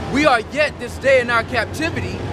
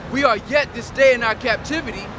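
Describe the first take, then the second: No difference in how they are said.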